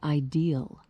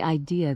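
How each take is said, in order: First: It is said with an added final L sound. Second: It is said without a final L sound.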